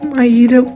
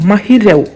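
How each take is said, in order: First: The h sound is dropped from the name. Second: The h sound is pronounced in the name. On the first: The speaker calls it wrong. "അല്ലാതെ മൈരവ് എന്നല്ല" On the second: The speaker calls it right. "എൻ്റെ പേര് മഹി രവ് എന്നാണ്"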